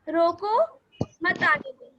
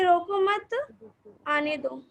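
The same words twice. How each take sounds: First: The pause comes after रोको. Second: The pause comes after मत.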